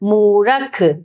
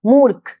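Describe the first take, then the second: First: A full vowel follows the r before kh. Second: The r joins the kh with no vowel. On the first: This is the older way of saying it. "पहले इस तरह से बोला जाता था" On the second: This is the present-day way of saying it. "इन शब्दों में तो हम पढ़ते हैं"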